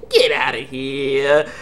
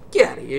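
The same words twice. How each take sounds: First: Slow, stretched GET OUTTA HERE; drawn-out dismissal. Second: Said in the usual way. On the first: Retold or imitated. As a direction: drag out "Get outta here" to send him off.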